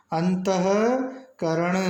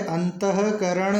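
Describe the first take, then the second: First: अंतःकरण slowly, the visarga clearly heard; slow correct pronunciation. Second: Said in the usual way. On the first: Shown as a demonstration. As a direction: dictate अंतःकरण syllable by syllable. (अंतःकरण धीरे-धीरे, विसर्ग साफ़ सुनाई दे) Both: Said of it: "शुद्ध होता है".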